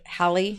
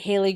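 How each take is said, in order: First: The first syllable sounds like 'hal'. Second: The first syllable sounds like 'hay'. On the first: This is how scientists say it. The speaker calls it right. "they pronounced it ha- Halley" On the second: This is how the speaker heard it growing up. The speaker calls it wrong. "I always heard it Haley growing up"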